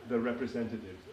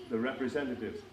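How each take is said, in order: Both takes have the same delivery.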